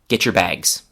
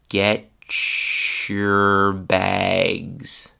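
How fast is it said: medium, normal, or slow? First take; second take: normal; medium. First: It is said at a normal conversational pace. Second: It is said at a medium pace. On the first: "at normal speed" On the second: "a bit faster"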